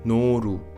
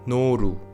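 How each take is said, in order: First: The middle consonant is the Korean L sound. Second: The same.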